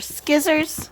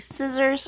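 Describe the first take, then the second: First: The word is pronounced in a playful, childish way. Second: The word is pronounced in the standard way.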